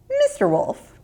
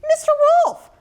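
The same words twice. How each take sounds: First: Put-on much higher, clever little girl voice. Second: Put-on much higher, sweet little girl greeting; friendly greeting. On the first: Ruthie addressing the wolf, much higher girl voice. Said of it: "she explained". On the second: Ruthie greeting the wolf as an old friend, much higher. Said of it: "greeted the wolf like an old friend". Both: A narrator's reading.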